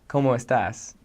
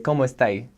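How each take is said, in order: First: It is standard Spanish with the final s pronounced. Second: It is Chilean Spanish with the final s dropped.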